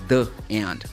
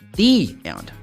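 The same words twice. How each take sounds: First: 'The' is said with a short uh vowel. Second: 'The' is said with a long ee vowel. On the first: The speaker calls it wrong. "not the end" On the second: The speaker calls it right. "before a vowel sound, it should pronounce like this. The"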